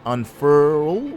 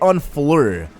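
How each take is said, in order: First: It is said as 'unfurl'. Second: It is said as 'unfleur'. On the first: The speaker calls it right. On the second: The speaker calls it wrong.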